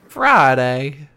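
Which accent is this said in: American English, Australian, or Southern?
Southern. It is said in a Southern accent.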